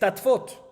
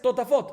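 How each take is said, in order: First: The word is said with two syllables. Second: The word is said with three syllables. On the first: This is the reading that follows the written spelling. "la manera de escribir es tatfot" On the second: This is the traditional spoken reading. "la manera de pronunciar es totafot"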